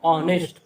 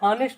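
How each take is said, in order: First: The word begins directly with a vowel. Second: The word begins with an h sound. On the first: The speaker calls it right. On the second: The speaker calls it wrong. "हानेस्ट नहीं"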